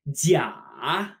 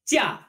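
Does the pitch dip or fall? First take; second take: dips; falls. First: The pitch dips low and then rises. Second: The pitch falls sharply from high to low. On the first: It means fake. "when we pronounce it with a dip" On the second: It means vacation.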